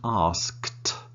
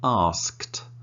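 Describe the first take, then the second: First: The ending is said as one syllable. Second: The same.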